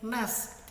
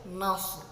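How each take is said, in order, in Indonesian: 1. Bunyi s biasa, dengan bibir direntangkan. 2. Bunyi s emfatik, dengan bibir dibulatkan ke depan. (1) "tidak dibaca seperti ini" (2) "tapi harus nas, harus dimonyongkan"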